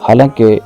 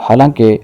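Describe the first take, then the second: No difference in how they are said.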